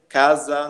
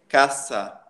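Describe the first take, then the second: First: The s sound has no hiss of air. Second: The s sound has a hiss of air. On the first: The speaker calls it wrong. "não existe casa no espanhol" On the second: The speaker calls it right. "saindo um pouco de ar"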